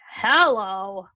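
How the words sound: It sounds weary and exasperated.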